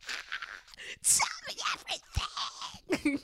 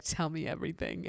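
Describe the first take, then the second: First: High whispered squeal, slow; high breathy eager gossip; excited squeal. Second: Said in the usual way. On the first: Retold or imitated.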